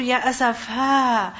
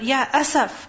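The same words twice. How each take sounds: First: "Ya asafa" stretched slowly, the final a held long; drawn-out lament. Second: Said in the usual way. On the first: Shown as a demonstration. Teacher contrasts the longer form, slowly drawn out. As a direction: draw out "asafa" like a sigh of sorrow. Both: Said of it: "What is more expressive?".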